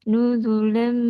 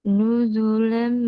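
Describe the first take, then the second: No difference in how they are said.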